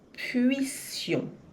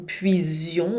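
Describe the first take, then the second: First: The middle consonant is a hissing s sound. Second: The middle consonant is a buzzing z sound. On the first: The speaker calls it right. "O som não é z, é s, de sapo" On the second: The speaker calls it wrong. "Cuidado para não dizer ... puision"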